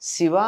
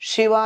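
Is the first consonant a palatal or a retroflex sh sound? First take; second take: palatal; retroflex. First: It begins with a palatal sh sound. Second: It begins with a retroflex sh sound. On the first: The speaker calls it right. "చక్కగా మెలికశాతో చెప్పగలిగిన" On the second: The speaker calls it wrong. "వాళ్ళల్లాగా ఉన్న మనకెందుకమ్మా"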